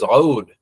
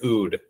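First: It begins with a tight sound in the throat. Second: It begins with a plain vowel sound. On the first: This is the original Arabic pronunciation. "you have to like use the back of your throat" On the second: This is the usual English pronunciation. "In English, we just say Oud"

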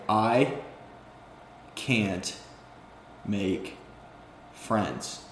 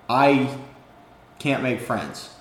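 First: It is said very slowly, word by word. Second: It is said at a normal pace.

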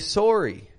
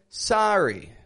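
First: It is said with a Canadian accent. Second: It is said with an American accent. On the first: "A Canadian, however, would say" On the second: "If we say the American short O, we say, for example"

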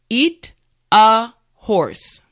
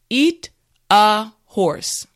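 Both takes have the same delivery.

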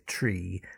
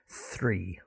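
First: The word begins with a plain t sound. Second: The word begins with a th sound. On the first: The speaker calls it wrong. "Some people mispronounce this and say tree" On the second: The speaker calls it right. "but three"

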